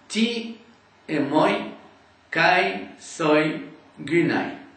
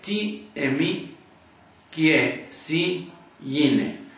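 First: The diphthongs are sounded fully as oi and ai. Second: The diphthongs are reduced to simple i and e vowels. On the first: "D'après la prononciation d'Erasme" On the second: "aujourd'hui on dirait"

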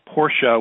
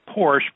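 First: The name is said the original way. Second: The name is said the American way. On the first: The speaker calls it right. "Porsche would be the correct pronunciation" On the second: The speaker calls it wrong. "The Americans tend to make it Porsche"

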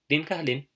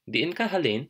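First: The first word has a short, single vowel. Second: The first word has a long, doubled vowel. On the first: "you could even shorten the two I's together, so it's just din" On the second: "you can just say"

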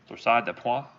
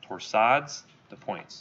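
First: It is said with a French accent. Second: It is said with an English accent.

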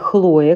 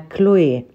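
First: The name begins with a rough h sound. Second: The name begins with a k sound. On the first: This is the usual local way of saying it. "как вы говорите в большинстве случаев" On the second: This is how native French speakers say it. "французы произносят именно"

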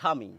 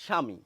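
No difference in how they are said.

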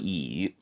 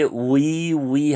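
First: The vowel is one steady rounded sound. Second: The vowel glides from oo to ee. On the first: The speaker calls it right. "우이가 아니고 이" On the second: The speaker calls it wrong. "많은 분들이 우이 하고 잘못 읽습니다"

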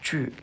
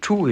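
First: The vowel is a front rounded 'u' sound. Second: The vowel is a back 'oo' sound. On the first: The speaker calls it right. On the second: The speaker calls it wrong.

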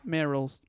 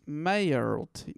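First: The first part sounds like Meryl. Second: The first part does not sound like Meryl.

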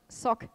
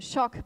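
First: The word begins with a plain s sound. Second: The word begins with an sh sound. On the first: This is how Greek speakers say the word. "but sock" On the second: This is how English speakers say the word. "as in shock"

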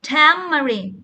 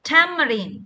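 The two takes are said the same way.

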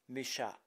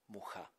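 First: The name is said with a French pronunciation. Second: The name is said with its original pronunciation. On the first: This is how the name is known worldwide. "in the French pronunciation as Mucha" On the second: This is the name's original form. "the original version of his name is Mucha"

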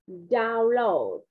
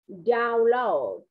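The two takes are said the same way.

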